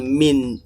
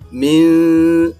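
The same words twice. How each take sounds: First: The n is clear, with no nasal hum. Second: The n is hidden, with a nasal hum. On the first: The speaker calls it wrong. "bukan min" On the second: The speaker calls it right. "tapi min. Nah, harus ada samar dan harus ada dengungnya"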